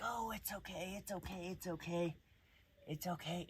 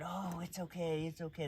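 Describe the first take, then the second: First: Mock soothing coo, higher and softer; soothing owner. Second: Soothing owner. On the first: Dog trainer mimicking a coddling owner, soft cooing. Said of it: "the owner would be like". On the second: Retold or imitated. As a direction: lightly play the coddling owner. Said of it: "you can't comfort him by being".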